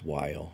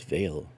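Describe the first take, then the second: First: The word begins with a W sound. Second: The word begins with a V sound. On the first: The speaker calls it wrong. "I don't think it's Weil" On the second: The speaker calls it right. "I think it's Veil. It's a V for the German pronunciation"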